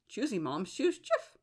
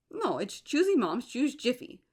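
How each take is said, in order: First: Said in the usual way. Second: Jiffy pushed higher and firm; insisting on Jiffy. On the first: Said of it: "But it's always been Choosy Moms Choose Jif". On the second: Shown as a demonstration. Correcting the official slogan to what she remembers, insistent. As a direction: lean hard into Jiffy. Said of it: "That's what I remember".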